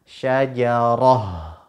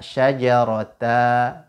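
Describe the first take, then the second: First: The word ends in an h sound. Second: The word ends in an open a vowel. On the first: The speaker calls it right. "kita ganti dengan huruf ha" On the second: The speaker calls it wrong. "Tidak boleh kita baca syajarata"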